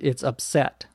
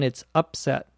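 First: The stress is on the second syllable. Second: The stress is on the first syllable.

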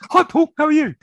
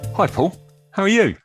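First: The greeting is said in a high pitch. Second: The greeting is said in a lower pitch.

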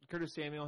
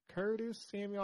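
First: It is said in his neutral accent. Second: It is said in a Southern accent.

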